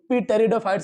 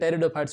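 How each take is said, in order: First: The word starts with a p sound. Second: The word starts without a p sound. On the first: The speaker calls it wrong. "पी टेरिडोफाइट्स नहीं होते हैं" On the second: The speaker calls it right. "टेरिडोफाइट्स होते हैं"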